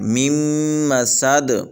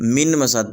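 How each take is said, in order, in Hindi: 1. पहला शब्द अगली m की आवाज़ में मिल जाता है। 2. पहला शब्द साफ़ n की आवाज़ पर खत्म होता है। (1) "इस मीम को अगली मीम के साथ मिला के पढ़ेंगे" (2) "यहाँ पर भी हज़रत गलती कर जाते हैं कि इसको मिन मसद पढ़ देते हैं"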